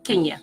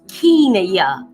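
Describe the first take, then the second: First: The first vowel is a short E sound. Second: The first vowel is a long E sound. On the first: The speaker calls it wrong. "not Kenya" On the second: The speaker calls it right. "long E"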